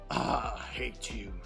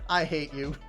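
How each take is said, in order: First: It is said in a Yosemite Sam voice. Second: It is said in his normal voice.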